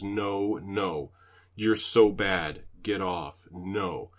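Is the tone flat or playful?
flat. It is read out in a flat tone.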